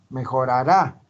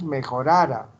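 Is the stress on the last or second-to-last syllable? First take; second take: last; second-to-last. First: The stress falls on the last syllable. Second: The stress falls on the second-to-last syllable. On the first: Something will improve. "tiene que llevar tilde" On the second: Something would improve, in a conditional sense. "Si no lleva tilde"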